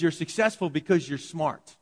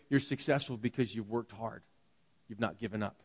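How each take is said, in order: First: Said in the usual way. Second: Gentle, earnest praise. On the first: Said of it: "We tell kids". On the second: Retold or imitated. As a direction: lower and softer, sincere encouragement. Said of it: "They tell their kids".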